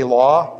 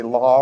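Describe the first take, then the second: First: Said in the usual way. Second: "law" with an R tacked on; Boston intrusive R. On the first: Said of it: "Do you ever hear how they say law?". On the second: Shown as a demonstration. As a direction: say "law" as "lawr". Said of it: "they put an R in law".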